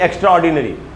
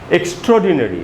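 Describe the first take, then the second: First: The first syllable sounds like ek, split apart. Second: The first syllable sounds like ik, blended. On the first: The speaker calls it wrong. "ना कि एक्स्ट्रा ऑर्डिनरी" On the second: The speaker calls it right. "सबसे पहले तो एक्स नहीं है, ये है इक्स"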